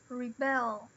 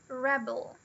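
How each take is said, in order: First: The stress is on the second syllable. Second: The stress is on the first syllable. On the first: It is the verb. "E o verbo é o rebel" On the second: It is the noun. "Aqui a gente tem a palavra rebel"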